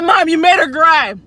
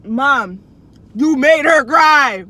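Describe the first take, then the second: First: Said in the usual way. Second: "you made her cry" slowed right down and louder, "her" pressed hardest; stress on "made her cry". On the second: Retold or imitated. Insisting to mom she made the teacher cry, emphatic.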